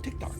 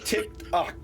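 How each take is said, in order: First: The name is said quickly and run together. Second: The name is said slowly and in full. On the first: This is how the name sounds in casual speech. "if you say it fast, it comes out" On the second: This is the character's actual full name. "That's his actual name"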